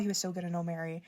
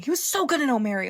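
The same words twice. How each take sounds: First: Quiet repeat. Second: Excited praise. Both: Real, not acted.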